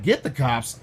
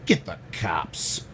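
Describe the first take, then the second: First: Said in the usual way. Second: Low, slow, drawn-out order; deep, deliberate put-on authority voice; Dave Chappelle-style impression. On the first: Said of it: "And I was like". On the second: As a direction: drop the pitch and stretch each word. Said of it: "Just Dave Chappelle and shit".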